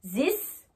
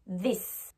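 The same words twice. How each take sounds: First: THIS pronounced "zis". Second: THIS with a voiced th, lower and softer; tongue between the teeth on THIS; true TH. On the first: Teacher contrasting for learners, THIS as zis. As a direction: start THIS on a French z. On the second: Teacher contrasting for learners, THIS with real th. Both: Shown as a demonstration. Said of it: "Vous entendez la différence?".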